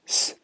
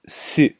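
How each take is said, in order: First: Only the s sound is heard, no vowel. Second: The syllable ends with a clear u vowel. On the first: "it's just S" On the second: "This is Su"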